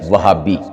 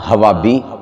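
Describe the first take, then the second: First: An h sound is in the middle. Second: An h sound comes at the start. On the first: The speaker calls it right. "तो सही लफ्ज़ क्या है? वहाबी" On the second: The speaker calls it wrong. "ना हवाबी"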